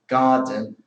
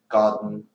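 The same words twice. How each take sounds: First: The middle consonant and vowel are fully pronounced. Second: The middle consonant is swallowed into the n. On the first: The speaker is speaking slowly and deliberately. "that's like careful pronunciation" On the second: The speaker is speaking quickly and naturally. "if you speak quicker, then you tend to abbreviate words"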